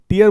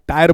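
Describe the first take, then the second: First: The first vowel sounds like 'ee'. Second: The first vowel sounds like 'eye'. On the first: "यानी टीयर बोल लीजिए" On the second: "और या टायर बोलिए"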